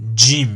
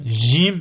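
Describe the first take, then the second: First: It starts with a d before the soft sound. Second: It starts with a soft sound, no d. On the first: "préférable de prononcer avec le d" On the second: "sans le d devant"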